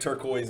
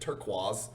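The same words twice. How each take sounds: First: It is said with a general pronunciation. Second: It is said with a South Louisiana pronunciation.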